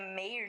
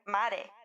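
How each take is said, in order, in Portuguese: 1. O nome é falado do jeito inglês. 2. O nome é falado do jeito do português brasileiro. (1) "o nome dela não é Maré, né? É Meir"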